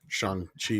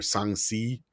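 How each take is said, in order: First: "Shang-Chi" said as "shong-chee"; uncertain pronunciation. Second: "Shang-Chi" said softer as "song-see"; alternative pronunciation. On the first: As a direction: try "Shang-Chi" with a "ch" in the second syllable. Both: Shown as a demonstration. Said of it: "how I'm supposed to say it".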